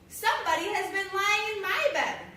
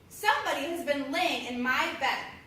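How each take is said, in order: First: It is said in a middle-sized voice. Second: It is said in a great big deep voice.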